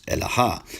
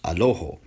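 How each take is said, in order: First: The word begins with e, then two a vowels. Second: The word begins with a, then two o vowels. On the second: This is the Western Syriac pronunciation. "in Western Syriac, it's pronounced Aloho"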